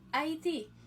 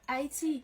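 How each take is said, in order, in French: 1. Elle se prononce à l'espagnole. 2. Elle se prononce à la française. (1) "hispanophone nan dit Haïti" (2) "Nous-mêmes nous prononçons Haïti. Même gens francophones"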